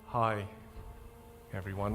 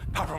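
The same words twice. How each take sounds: First: It is spoken very slowly with drawn-out pauses. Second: It is spoken very quickly without pauses. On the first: The speaker seems dull and not influential. "I get stuck at a two" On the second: The speaker seems rushed. "I speak really quickly"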